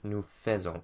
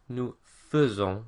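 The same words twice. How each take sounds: First: The first vowel of faisons is full and clear. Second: The first vowel of faisons is short and reduced. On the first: The speaker calls it wrong. "not nous faisons" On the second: The speaker calls it right. "which is nous faisons"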